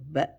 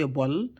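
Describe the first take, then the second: First: The syllable is said light and flat. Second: The syllable is said heavy and rounded. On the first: The speaker calls it right. "make it flat" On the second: The speaker calls it wrong. "Don't say"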